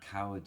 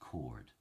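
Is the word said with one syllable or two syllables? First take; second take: two syllables; one syllable. First: The word has two syllables, modern style. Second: The word is squeezed into one syllable.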